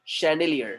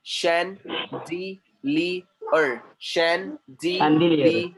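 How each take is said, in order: First: Said in the usual way. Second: "chandelier" in slow separate syllables, shan-dee-lee-er; teacher's drawn-out, broken-up "chandelier" with an sh start; syllable-by-syllable pronunciation. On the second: Shown as a demonstration. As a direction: sound out "chandelier" with a clear gap after every syllable. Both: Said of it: "So वैसे आएगा वहां पर".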